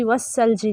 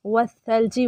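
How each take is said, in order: First: वस्सलजी with a whistling double s; hissed s for tha. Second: वस्सलजी with a soft th in place of s; soft tha. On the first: Teacher shows what not to read, sharp s. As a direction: hiss the middle of वस्सलजी as seen, not th. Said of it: "वस्सलजी नहीं पढ़ना". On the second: Teacher models it for students, soft th sound. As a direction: lisp the middle of वस्सलजी gently as th. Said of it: "फिर सा आ गया". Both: Shown as a demonstration.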